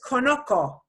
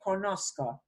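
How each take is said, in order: First: There is no s sound before the final syllable. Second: An s sound comes before the final syllable. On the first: The speaker calls it wrong. "it would sound like this" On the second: The speaker calls it right. "we get a Z C O to preserve that sound"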